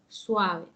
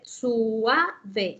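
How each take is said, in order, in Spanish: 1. La u y la a se deslizan juntas en una sola sílaba. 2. La u y la a se separan en dos sílabas. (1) "ella debe de leer suave" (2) "ella no la puede leer suave"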